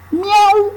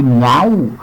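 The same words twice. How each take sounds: First: Very high-pitched imitation meow; cat meow. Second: Said in the usual way. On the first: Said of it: "El gato en el techo dice". (maullido agudo de gato) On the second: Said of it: "dice miau".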